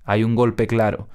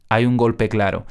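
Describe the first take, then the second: No difference in how they are said.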